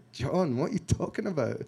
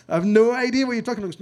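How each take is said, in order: First: Said in the usual way. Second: Louder, higher, faster burst of disbelief; rising exasperation at a friend who makes no sense; exasperated outburst. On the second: Retold or imitated. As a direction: blurt it out, baffled and exasperated. Baffled reply to John's call.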